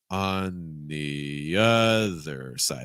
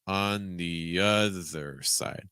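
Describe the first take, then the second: Both takes have the same delivery.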